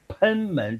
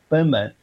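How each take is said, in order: First: The first syllable is not said as bēn. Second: The first syllable is said as bēn. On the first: The speaker calls it wrong. "有的人呢，会把那个贲门呢念成贲门，其实不是贲门" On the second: The speaker calls it right. "念成贲，贲是奔放的意思"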